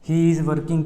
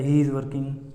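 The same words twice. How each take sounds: First: He and is are said as separate words. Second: He and is are joined into one syllable. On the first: "ही इज़ working की जगह" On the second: "हमने बोल दिया ... ये एक ही में जुड़ गया दोनों"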